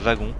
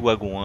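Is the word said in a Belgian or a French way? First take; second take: French; Belgian. First: It is said with a French pronunciation. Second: It is said with a Belgian pronunciation. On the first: "vous les Français vous dites wagon" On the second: "moi je suis belge et je dis wagon"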